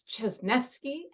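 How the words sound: The name is said with a Polish pronunciation. "if you're in Poland, it's Czesnewski"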